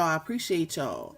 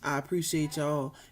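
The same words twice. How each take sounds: First: It is said with excitement. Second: It is said low and unexcited.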